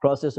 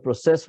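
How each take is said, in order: First: "process" said PRO-cess; stress on first syllable. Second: "process" said pro-CESS; stress on second syllable. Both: Shown as a demonstration. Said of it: "process में फर्क नहीं करेंगे".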